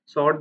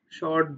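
First: "sort" said with clear s sound; "sort" fixed with a crisp s; corrected sort. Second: "sort" said as "short", with sh sound; "sort" slips into "short". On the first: Shown as a demonstration. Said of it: "but sort". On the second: Real, not acted. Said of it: "not short, but sort".

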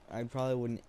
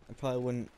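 The two takes are said the same way.

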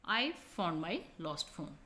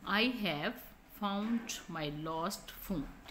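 First: "I found my lost phone" with I've short and unstressed, slow; weak form I've. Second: "I have found my lost phone" with have said in full, slow and clear; full form I have. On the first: Teacher reading the contracted I've to students, slow and light. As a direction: glide over I've quickly, no weight on it. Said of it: "I in the second sentence is weak". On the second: Teacher reading the full form I have to students, slow and deliberate. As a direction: spell out "I have" fully and slowly. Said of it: "have पर हमने यहाँ पर जोर दिया है". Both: Shown as a demonstration.

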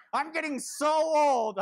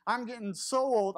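First: Put-on higher, louder, slow whine on "so old"; hammed-up woe is me; mock self-pity. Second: Said in the usual way. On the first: Shown as a demonstration. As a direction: draw out "I'm getting so old" like a sulking kid. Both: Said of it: "I know, woe is me".

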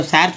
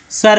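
First: सर misread with a wide vowel, "sair"; I wrongly read literally. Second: सर with a short "uh" vowel, "sur". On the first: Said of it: "थोड़ी बोलते हैं". (सर को गलत ढंग से "सैर" पढ़ना) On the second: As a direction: say सर as "sur", not "sair". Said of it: "आई का उच्चारण जो है अ". (सर में आई का उच्चारण अ) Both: Shown as a demonstration.

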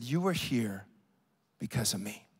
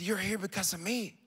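First: Very low, soft, with a pause before "because of me"; hushed revelation. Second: Soft, at usual pitch, in one phrase; soft repeated revelation. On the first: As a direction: drop right down and let "because of me" land quietly. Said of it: "She said these words". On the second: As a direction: say it softly and unbroken, letting "me" lift. Repeats woman's revelation, voice lifted. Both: Retold or imitated.

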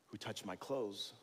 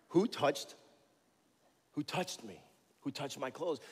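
First: Said in the usual way. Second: Higher, louder searching demand; acted Jesus asking. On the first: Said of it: "he asked". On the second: Jesus calls out to the crowd, searching and insistent. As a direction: call out into the crowd.

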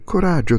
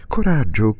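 First: Higher coraggio, lifting with hope; joyful encouragement. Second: Joyful encouragement. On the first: Son urging his dying father, higher with joy. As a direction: coraggio cried up high to cheer him. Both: A narrator's reading. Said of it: "con accento quasi di gioia".

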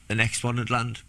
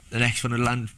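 The two takes are said the same way.

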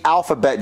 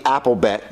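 First: Said in the usual way. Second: "alphabet" said like "apple-bet", copying Jeffy; imitating a mispronunciation. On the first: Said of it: "not the alphabet". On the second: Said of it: "It's the alphabet".

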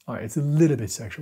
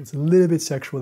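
First: Said in the usual way. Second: Louder emphatic repeat. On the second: Real, not acted. Vlogger insisting to viewers, louder emphatic repeat. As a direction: punch it out louder and higher.

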